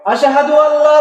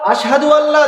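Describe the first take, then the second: Both takes have the same delivery.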